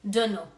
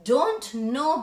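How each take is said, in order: First: The words are blended into one reduced word. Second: Both words are said fully and separately. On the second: "Don't know becomes D U N N O"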